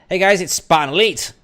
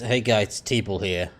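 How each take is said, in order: First: It is said with lively, energetic intonation. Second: It is said flatly, with little energy.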